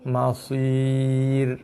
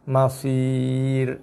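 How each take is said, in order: No difference in how they are said.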